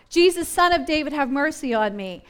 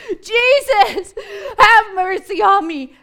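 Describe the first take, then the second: First: Blind man calling out to Jesus, voice only a little raised; half-hearted imitation of a shout; mild retold shout. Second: High, loud acted screech; desperate inarticulate cry. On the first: Blind beggar shouting to Jesus for mercy, mildly acted. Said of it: "the man begins to shout". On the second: Blind man desperate to be near Jesus, screeching for mercy. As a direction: cry out wildly, imitating a desperate beggar. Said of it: "particularly like inarticulate cries".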